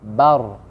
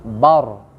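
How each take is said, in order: No difference in how they are said.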